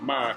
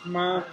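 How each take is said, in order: First: The syllable is said in the fourth tone. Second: The syllable is said in the first tone. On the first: It means headboard to a bed. "fourth tone" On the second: It means mother. "Ma in the first tone"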